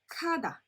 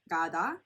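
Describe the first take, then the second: First: The word begins with a voiceless k sound. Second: The word begins with a voiced g sound. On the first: The speaker calls it right. "but kada. In this case, it's a K sound" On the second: The speaker calls it wrong. "It's not gada"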